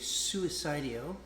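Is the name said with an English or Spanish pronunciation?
English. The name is said with English-style sounds.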